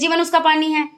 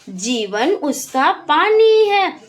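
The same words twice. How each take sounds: First: It is blurted out abruptly without steady rhythm. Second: It is read with an even, steady rhythm. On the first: The speaker calls it wrong. "अब आप एकदम से कहें" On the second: The speaker calls it right. "एक लय में एक rhythm में आपको पढ़ना है"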